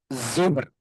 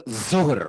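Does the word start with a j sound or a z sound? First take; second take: z sound; z sound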